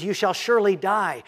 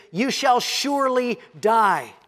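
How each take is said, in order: First: "surely" leaned on, falling; "You shall surely die" with weight on "surely"; stress on surely. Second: Said in the usual way. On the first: Shown as a demonstration. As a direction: press down on "surely". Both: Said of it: "the emphasis is".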